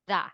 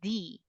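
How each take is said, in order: First: The word ends in a short 'uh' vowel. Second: The word ends in a long 'ee' vowel. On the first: It comes before a consonant. "Followed by a consonant, the" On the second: It comes before a vowel. "if that word is followed by the vowel A E I O U, we pronounce that as the"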